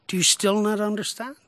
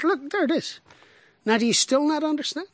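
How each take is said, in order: First: Said in the usual way. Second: Higher, pleading; with rising pitch, "still" leaning in; Jesus exasperated. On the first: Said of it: "Jesus said". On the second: Shown as a demonstration. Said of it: "we don't get tone".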